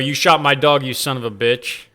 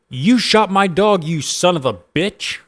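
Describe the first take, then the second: First: It is said in the speaker's normal voice. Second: It is said in a put-on teenage boy voice.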